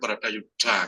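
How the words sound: The consonants are heavy and breathy. This is how it is said in Java. "kalau Jawa kan Baratayuda gitu berat tuh"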